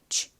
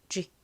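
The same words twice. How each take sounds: First: The sound is soft, with air escaping. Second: The sound is sharp and clearly articulated. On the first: "좀 바람 빠진 듯이" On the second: "명확하게"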